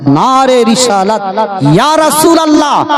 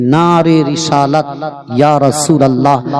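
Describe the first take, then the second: First: High, ringing call to the crowd; rallying slogan. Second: Said in the usual way. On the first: Acted. Preacher leading the congregation in the slogan, high rallying cry. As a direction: throw the slogan out as a raised chant.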